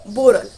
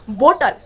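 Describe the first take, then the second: First: The middle T sounds soft, like a D. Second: The middle T is a crisp T sound. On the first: The speaker calls it right. "They say boral" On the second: The speaker calls it wrong. "they don't say that bottle"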